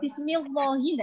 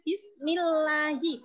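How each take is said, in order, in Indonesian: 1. Huruf L pada Allah dibaca tebal dan penuh. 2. Huruf L pada Allah dibaca tipis dan ringan. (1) "Tidak boleh Bismillahi, tidak boleh ya" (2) "maka bacanya Bismillahi tipis"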